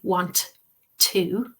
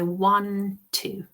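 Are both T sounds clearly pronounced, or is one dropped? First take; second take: both pronounced; one dropped. First: Both T sounds are pronounced clearly. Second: One of the T sounds is dropped. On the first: "I'm not saying want to" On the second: "one of the T's is disappearing"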